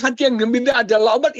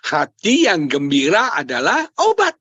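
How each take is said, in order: First: Higher, hurried repeat of the caption; quick recap. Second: Measured recital. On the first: Preacher recapping his caption to wife, quick recap. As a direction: rattle the quote off quickly. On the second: Husband answers wife's caption request, measured recital. Gives his caption to wife. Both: Retold or imitated.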